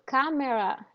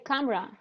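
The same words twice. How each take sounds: First: The middle vowel is clearly pronounced. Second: The middle vowel is dropped. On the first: The speaker calls it wrong. "You don't say camera" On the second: The speaker calls it right. "we we lost the the vowel"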